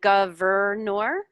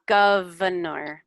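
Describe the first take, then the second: First: The extra middle R sound is clearly pronounced. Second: The extra middle R sound is dropped lazily. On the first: The speaker calls it wrong. "you're saying governor" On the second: The speaker calls it right. "We don't even pronounce that extra R really"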